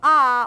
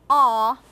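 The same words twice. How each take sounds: First: The vowel is made further forward. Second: The vowel is made further back. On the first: This is the usual non-British vowel. "you substitute uh, ah" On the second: This is the British vowel. "a further back ah"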